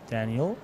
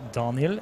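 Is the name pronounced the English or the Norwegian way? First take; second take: English; Norwegian. First: The name is said with an English pronunciation. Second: The name is said with a Norwegian pronunciation.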